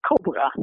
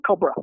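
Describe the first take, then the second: First: "cobra" with stress on "co" and a full "bra" vowel; Dutch cobra. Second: "cobra" with stress on "co" and a schwa ending; English cobra. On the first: Contrasting Dutch with English, full-vowel "cobra". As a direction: keep "bra" full, not schwa. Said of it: "first syllable has primary stress". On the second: Explaining English reduction, schwa-final "cobra". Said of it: "second syllable in English is reduced". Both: Shown as a demonstration.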